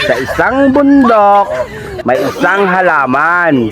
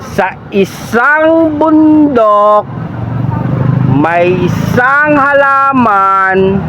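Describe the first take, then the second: First: It is read at a slowed-down pace. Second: It is read at an even slower pace. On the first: "babagalan ko na" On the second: "mabagal na ulit. Mas mabagal"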